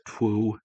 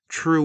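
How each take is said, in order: First: The R is replaced by a W sound. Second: The word is said with a normal R sound. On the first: "pronounce it twoo, or you know, kind of like the best Bugs Bunny voice" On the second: "it sounds like I just said true"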